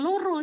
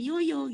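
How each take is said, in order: First: The l and r sounds are said clearly. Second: The l and r sounds become y sounds. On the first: The speaker calls it right. "ya bilang loro" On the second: The speaker calls it wrong. "jangan yoyo gitu"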